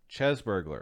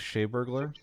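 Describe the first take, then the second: First: The first word sounds like chess. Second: The first word sounds like shay. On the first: The speaker calls it right. "No, it's Chess Burglar" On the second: The speaker calls it wrong. "Is that how you say it?"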